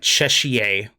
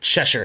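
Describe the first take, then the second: First: The name ends in a long 'shire' sound. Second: The name ends in a short 'sher' sound. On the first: The speaker calls it wrong. "for the longest time, I thought myself it was like Cheshire" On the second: The speaker calls it right. "There's no extra sounds in there"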